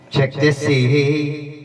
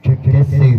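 First: The voice sounds thin, lacking low frequencies. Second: The voice sounds boomy, with heavy low frequencies. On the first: "Namipis na siya" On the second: "Umugong na siya"

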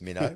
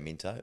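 First: The t sound is dropped from the middle. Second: The t sound is pronounced clearly in the middle. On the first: The speaker calls it right. "it's Minnow" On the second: The speaker calls it wrong. "don't say Minto"

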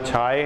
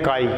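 First: The word begins with an aspirated chh sound. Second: The word begins with a k sound. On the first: The speaker calls it wrong. "ना छाए है" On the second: The speaker calls it right. "तो असल में क्या है? तो ये है काई।"

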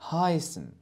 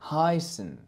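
No difference in how they are said.

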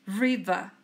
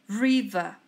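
No difference in how they are said.

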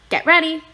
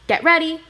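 Both takes have the same delivery.

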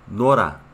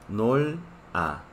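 First: The consonant links into the next syllable. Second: The two parts are said separately. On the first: "por la regla de pronunciación se pronuncia Nora" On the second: "Raíz más a. ... Nol más a"

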